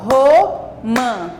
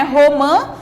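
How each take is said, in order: First: "romã" slowly in two beats, RO, pause, MÃ; syllable by syllable. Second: Said in the usual way. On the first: Shown as a demonstration. ("romã" devagar, separando as sílabas) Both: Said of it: "temos duas sílabas".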